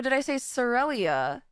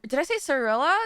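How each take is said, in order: First: "Cyrelia" ending in -lee-uh; alternative pronunciation. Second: "Cirilla" ending in a plain -la; alternative pronunciation. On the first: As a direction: say "Cyrelia" with an extra ee before the final a. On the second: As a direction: say "Cirilla" as three syllables, questioning. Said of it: "or did I say Cyrelia". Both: Shown as a demonstration.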